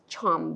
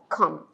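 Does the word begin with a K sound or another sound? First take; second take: another sound; K sound. First: The first consonant is not a K sound. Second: The first consonant is a K sound. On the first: The speaker calls it wrong. "it is not read as chom" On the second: The speaker calls it right. "but come"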